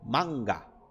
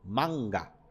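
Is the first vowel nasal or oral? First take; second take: oral; oral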